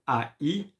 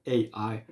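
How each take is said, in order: First: A I named as French letters, "ah, ee"; French letter names. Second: A I named as English letters, "ay, eye"; English letter names. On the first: Teacher spelling for learners, French letter names. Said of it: "I speak French". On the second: Teacher translating the spelling, English letter names. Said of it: "in English". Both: Shown as a demonstration.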